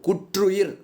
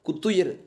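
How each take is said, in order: First: It is said with the careful formal pronunciation. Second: It is said with the everyday spoken pronunciation. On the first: "தூய தமிழ் சொல்" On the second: "பேச்சொலக்கு சொல்"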